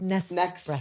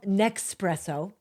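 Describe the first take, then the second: First: An s sound comes before 'presso'. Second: An x sound comes before 'presso'. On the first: The speaker calls it right. "It's called Nespresso" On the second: The speaker calls it wrong. "It's not called Nexpresso"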